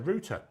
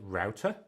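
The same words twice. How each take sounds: First: It is said with the British pronunciation. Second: It is said with the Australian pronunciation. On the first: "in the U K it was it's a router" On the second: "over in Australia they pronounce it router"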